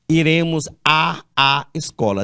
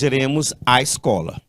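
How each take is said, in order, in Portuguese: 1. Dois sons de a vêm antes de 'escola'. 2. Um som de a vem antes de 'escola'. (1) "não leia assim" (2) "você só irá pronunciar a"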